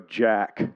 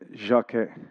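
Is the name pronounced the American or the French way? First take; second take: American; French. First: The name ends abruptly on a plain k sound. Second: The name ends with a slight vowel after k. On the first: "as Americans would do" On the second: "It's actually a little bit of an A at the end of it"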